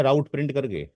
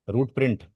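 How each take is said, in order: First: राउट with an "ow" sound, like "rout"; route said as rout. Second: रूट with a long "oo", like "root"; route said as root. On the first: Teacher first says the command as राउट print. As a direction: say राउट rhyming with "out". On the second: Teacher corrects himself to रूट print. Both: Shown as a demonstration.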